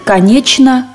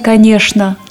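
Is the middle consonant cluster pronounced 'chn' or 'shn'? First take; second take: chn; shn. First: The middle cluster is pronounced with a ch sound. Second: The middle cluster is pronounced with a sh sound. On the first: This is the expected future pronunciation. "То есть будет «конечно»" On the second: This is the traditional pronunciation that may disappear. "а не «конечно»"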